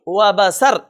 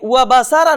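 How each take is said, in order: First: The word ends on a stopped consonant. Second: The word ends with a final vowel sound. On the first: The speaker calls it right. "इस तरह पढ़ेंगे" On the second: The speaker calls it wrong. "नहीं"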